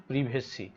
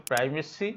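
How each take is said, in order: First: প্রিভেসি with short "priv" at the start; British প্রিভেসি, i as in "sit"; British pronunciation. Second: প্রাইভেসি with "pry" at the start; North American pronunciation. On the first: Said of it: "আর British হচ্ছে". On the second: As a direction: say প্রাইভেসি the North American way, long "eye" vowel. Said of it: "উত্তর আমেরিকার উচ্চারণ হচ্ছে". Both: Shown as a demonstration.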